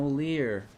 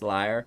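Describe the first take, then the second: First: The word rhymes with 'fear'. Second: The word rhymes with 'fire'. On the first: "it's supposed to be Leer" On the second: "like a Lyre. Not like you're a liar"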